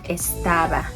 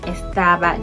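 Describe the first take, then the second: First: The s sound is clearly pronounced. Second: The s sound is weakened, barely heard.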